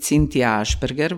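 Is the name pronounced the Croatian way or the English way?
Croatian. The name is pronounced with Croatian sounds. "which is my pronunciation of my name in Croatian"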